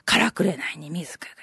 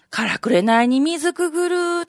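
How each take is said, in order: First: Breathy whisper of the line; hushed poem recital; whispered verse. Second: Said in the usual way. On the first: Shown as a demonstration.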